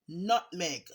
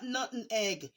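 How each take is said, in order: First: The word is said with two syllables. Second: The word is said with three syllables. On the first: The speaker calls it right. "It's N U T M E G. Nutmeg" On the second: The speaker calls it wrong. "It's not nutting egg"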